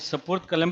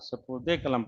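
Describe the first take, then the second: First: The words are joined with no linking vowel. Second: An 'e' vowel links the two words. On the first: The speaker calls it wrong. "नहीं सुपुर्द कलम पढ़ेंगे या कुछ और पढ़ेंगे" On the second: The speaker calls it right. "सुपुर्दे कलम पढ़ेंगे, क्योंकि कलम को सुपुर्द किया है"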